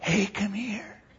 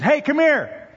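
First: The voice is lowered and quiet. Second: The voice is raised and loud. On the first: It is gossip shared in secret. "That's usually not news" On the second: It is ordinary news. "You raise your voice. That's news"

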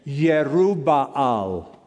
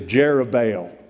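First: The name begins with a Y sound. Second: The name begins with a J sound. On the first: This is how the name is said in Hebrew. "or the Hebrew pronunciation" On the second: This is how Americans say the name. "We're Americans, so we're going to say Jerubbaal"

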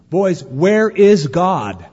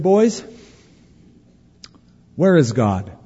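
First: The question is asked somewhat firmly. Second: The question is asked gently and mildly.

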